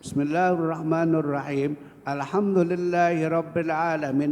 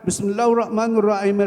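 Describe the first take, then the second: First: It is read slowly, stopping after each verse. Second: The phrases run together in one breath. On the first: The reciter stops at each verse as recommended. "pelan-pelan banget" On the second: The reciter reads the whole chapter without stopping. "Satu Fatihah, satu napas"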